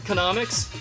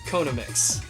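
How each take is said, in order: First: The word begins like the name Konami. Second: The word begins like the Hawaiian word Kona. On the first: "I've always said Konamics because I also say Konami" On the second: "Kona is a thing in Hawaiian"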